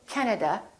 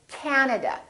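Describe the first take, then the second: First: The first vowel is short and not prolonged. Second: The first vowel is long and prolonged. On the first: The speaker calls it wrong. "don't say" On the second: The speaker calls it right. "say Canada, this a is really long"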